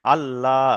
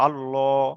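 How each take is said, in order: First: "আল্লাহ" with a light L, ending in open laa; thin L. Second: "আল্লাহ" with a heavy, rounded L, ending llo; thick L. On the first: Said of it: "বারিকের উচ্চারণ হলো". ("আল্লাহ" বারিক করে, আল-লা উচ্চারণে) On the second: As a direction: say "আল্লাহ" full, as al-lo. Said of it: "পুরের উচ্চারণ হলো". ("আল্লাহ" পুর করে, আল-ল উচ্চারণে) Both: Shown as a demonstration.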